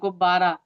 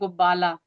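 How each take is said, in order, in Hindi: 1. अंतिम व्यंजन एक फ़्लैप्ड R ध्वनि है। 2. अंतिम व्यंजन एक L ध्वनि है। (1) "जैसे हम कहते हैं गुब्बारा" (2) "ये बच्चे बोलते हैं गुब्बाला"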